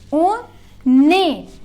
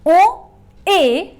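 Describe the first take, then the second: First: The n sound links into the following vowel. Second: The two words are said apart, without linking. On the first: "if I join" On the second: "pronunciation separately"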